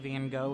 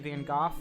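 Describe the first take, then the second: First: The name is pronounced the American way. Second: The name is pronounced the British way. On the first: "we say Van Gogh here" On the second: "for you British folks in the room, uh, that's often the pronunciation"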